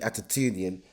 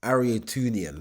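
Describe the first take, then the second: First: The name has a t sound after the first vowel. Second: The name has an r sound after the first vowel. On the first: This is the speaker's own altered version of the name. The speaker calls it wrong. "His name isn't actually Atatunian" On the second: This is the name as it is really pronounced. The speaker calls it right. "It's actually Ariatunian"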